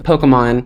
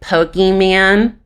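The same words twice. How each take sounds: First: The word is pronounced in the standard way. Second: The word is pronounced in a distorted way. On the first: The speaker calls it right. "which is a very simple word" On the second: The speaker calls it wrong. "they were like Pokemon. No, it's not Pokemon"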